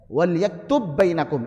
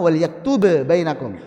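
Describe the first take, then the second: First: The first b merges into the next b. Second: The first b is released with an echoing bounce. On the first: "Perhatikan di sini" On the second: "Ini qalqalah harusnya"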